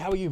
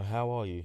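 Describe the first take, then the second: First: It is tossed off quickly as a casual greeting. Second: It is asked slowly and earnestly, with real concern. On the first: It is just a routine greeting. The speaker calls it wrong. "a common greeting" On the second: The asker genuinely wants to know how you are. The speaker calls it right. "No, no"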